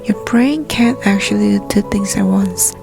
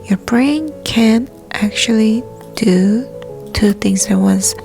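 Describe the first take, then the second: First: The sentence is spoken at a fast pace. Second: The sentence is spoken at a moderate pace.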